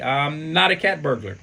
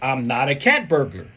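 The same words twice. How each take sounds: First: It is said weakly and hesitantly. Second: It is said somewhat more forcefully.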